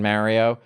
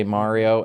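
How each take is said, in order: First: "Mario" with a flat a, MARR-ee-oh; short-A Mario. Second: "Mario" with an open ah, MAH-ree-oh; broad-A Mario. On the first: Explaining two ways people say it, "Mario" as MARR-ee-oh. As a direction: say "Mario" with the vowel of "cat". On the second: Explaining two ways people say it, "Mario" as MAH-ree-oh. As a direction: say "Mario" with the vowel of "father". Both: Shown as a demonstration. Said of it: "the two ways people say Mario".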